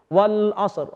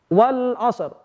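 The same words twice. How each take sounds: First: The final consonant is held with no vowel after. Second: A short vowel is added after the final consonant. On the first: The recitation stops at this word. "ketika sukun" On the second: The recitation continues into the next word. "Atau kita wasalkan"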